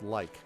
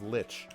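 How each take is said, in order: First: The word rhymes with like. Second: The word rhymes with itch. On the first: "which I still feel like should be called like" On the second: "The other one that was like that for me was lich"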